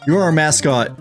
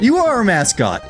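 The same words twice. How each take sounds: First: It is said in a plain, unfriendly tone. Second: It is said in a warmer, nicer tone. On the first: The speaker calls it wrong. "That's that sounds bad" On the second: The speaker calls it right. "It doesn't sound that bad if I say it in a better tone"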